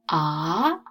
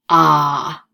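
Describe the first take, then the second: First: It is said with the second tone. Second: It is said with a curving third tone. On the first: "Second tone" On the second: "Third tone is ah, ... like you're driving the curves"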